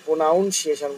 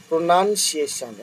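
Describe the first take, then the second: First: "প্রোনাউন্সিয়েশন" with "noun" in the middle; common mispronunciation. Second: "প্রোনাউন্সিয়েশন" with second syllable "nun", not "noun"; correct pronunciation. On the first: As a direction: say "pro-NOUN-see-ay-shun", as many do. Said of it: "অনেকে প্রোনাউন্সিয়েশন বলে". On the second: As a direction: slowly say "pro-NUN-see-ay-shun". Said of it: "উচ্চারণ". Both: Shown as a demonstration.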